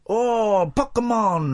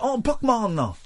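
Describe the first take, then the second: First: Hammed-up slow, high awed "Oh, Pokemon"; mock the inventor's wonder, drawn out; Pac-Man creator impression. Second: "Oh, Pokemon" pitched high and hammed up; Pac-Man creator impression. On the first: Host imitating the Pac-Man inventor recalling his idea, mock awe. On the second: Host redoing the inventor's line to his co-hosts, hammed-up. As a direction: repeat the impression, higher and lighter. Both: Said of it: "that is actually a brilliant impression".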